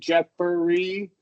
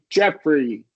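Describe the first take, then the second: First: An extra vowel is heard between f and r. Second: No vowel is heard between f and r. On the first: "Instead of" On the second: "it's just going to be"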